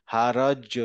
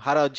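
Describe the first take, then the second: First: "হারজ" with জ rebounding into a short vowel; tennis-ball bounce. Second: "হারজ" ended straight on জ; without qalqalah. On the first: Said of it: "একটু বম বম হয় না". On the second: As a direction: say "হারজ" with no bounce at the end. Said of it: "এই রুলসটা না use করতাম". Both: Shown as a demonstration.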